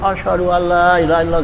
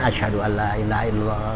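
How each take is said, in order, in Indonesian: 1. Frasa itu diucapkan dengan keras. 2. Frasa itu diucapkan dengan pelan. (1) "baru kenceng" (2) "dipelan dulu buat dirinya"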